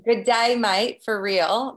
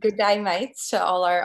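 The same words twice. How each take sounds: First: Bad Aussie "good day, mate", louder and slow; hammed-up Australian greeting, drawn out; terrible Australian accent. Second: Light Aussie "good day, mates", a bit louder; playful Australian greeting to friends; mock Australian accent. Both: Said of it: "That was terrible accent".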